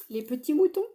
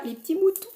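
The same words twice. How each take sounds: First: Said in the usual way. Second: High, loud, gushing "les petits moutons"; squeal of delight. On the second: Real, not acted. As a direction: blurt it out, thrilled by the sheep. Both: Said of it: "Oula, excusez-moi".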